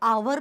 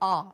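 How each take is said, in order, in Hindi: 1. यह दो अक्षरों में बोला जाता है, ah-wer। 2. यह R अक्षर जैसा लगता है, एक अक्षर। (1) "इसको आवर नहीं बोला जाता है" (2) "इसका जो प्रोनाउंसिएशन होता है वो सिर्फ इतना सा होता है"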